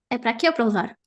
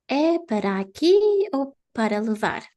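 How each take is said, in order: First: The question is spoken quickly. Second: The question is spoken slowly. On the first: This is how real waiters say it. "They say it fast, like this" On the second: This is how a class would say it. "they don't say like this"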